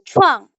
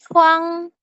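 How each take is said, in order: First: The syllable is said in the fourth tone. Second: The syllable is said in the first tone. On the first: "Nada keempat itu chuang" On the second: "yang pertama contohnya itu huang"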